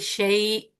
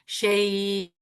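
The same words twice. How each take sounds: First: The vowel is held for about two counts. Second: The vowel is held for about four counts.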